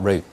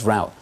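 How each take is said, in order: First: The word is said in a British accent. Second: The word is said in an American accent. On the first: "and not route" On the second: "I'm just shocked I said route"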